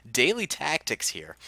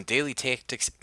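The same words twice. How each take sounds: First: Said in the usual way. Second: Daily Tactics in a Midwestern accent, flat drawn vowels. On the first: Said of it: "didn't mean to put on a Midwestern accent". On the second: Real, not acted. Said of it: "put on a Midwestern accent like that".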